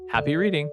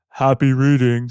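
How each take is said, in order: First: It is said in an ordinary speaking voice. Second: It is said in a deepened, lowered voice.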